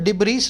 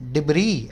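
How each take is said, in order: First: The word ends with an audible s sound. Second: The word ends without any s sound. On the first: The speaker calls it wrong. "इसको डिब्रीस नहीं बोलेंगे" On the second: The speaker calls it right. "इसको बोलेंगे डिब्री। एस यहाँ पे silent है।"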